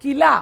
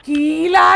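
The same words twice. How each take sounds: First: किला with a short, quick 'ki'; correct short vowel. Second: कीला with the first vowel stretched to a long 'kee'; wrong long vowel. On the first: Teacher corrects the word, किला with a short first vowel. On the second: Teacher shows the mistake, कीला with a long drawn 'kee'. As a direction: drag out the first syllable of कीला. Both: Shown as a demonstration. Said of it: "कीला नहीं हो रहा".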